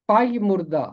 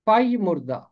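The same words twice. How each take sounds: The two takes are said the same way.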